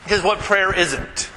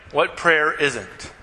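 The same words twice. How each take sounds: First: Said in the usual way. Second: What prayer isn't drawn out slowly, weight on prayer; emphatic slow What prayer isn't; slow emphatic repeat. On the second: Shown as a demonstration. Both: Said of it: "I wanna sort some things out".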